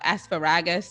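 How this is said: It is said with a Trinidadian pronunciation. "that that's what we would say"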